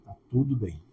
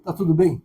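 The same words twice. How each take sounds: First: Calm, low reassurance; quiet calm reply. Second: Said in the usual way. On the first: Retold or imitated. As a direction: answer softer and lower, at peace. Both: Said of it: "repeated exchange".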